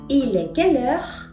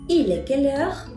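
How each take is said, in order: The two takes are said the same way.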